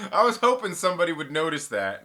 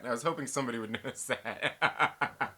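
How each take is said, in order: First: Louder, pleased announcement; loud proud claim. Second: Breaking into laughter mid-line; laughing through it. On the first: Streamer admits to chat he wanted them to notice, loudly. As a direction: call it out to the chat. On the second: Streamer repeats his admission to chat, laughing. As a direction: let the laugh take over the words. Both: Real, not acted.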